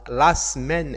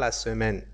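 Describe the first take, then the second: First: The first e of semaine is silent. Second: The first e of semaine is pronounced. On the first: The speaker calls it right. "Il faut pas prononcer le I" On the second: The speaker calls it wrong. "et pas"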